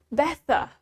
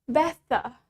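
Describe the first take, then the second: First: It is said in a British accent. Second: The same.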